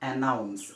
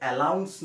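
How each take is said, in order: First: The middle consonant is an N sound. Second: The middle consonant is an L sound. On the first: The speaker calls it right. "এইটো হৈছে এনাউন্স" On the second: The speaker calls it wrong. "এলাউন্স নহয়"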